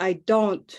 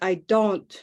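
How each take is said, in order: First: The vowel in don't stays flat, unmoving. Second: The vowel in don't stays flat, unmoving.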